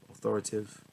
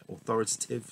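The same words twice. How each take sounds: First: Authoritative with a syllable dropped, as "authoritive"; slip of the tongue. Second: Authoritative with every syllable, "au-THOR-i-ta-tive"; corrected pronunciation. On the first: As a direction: stumble on authoritative, saying "au-THOR-i-tive". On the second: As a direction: redo authoritative carefully, sounding the "ta". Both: Real, not acted.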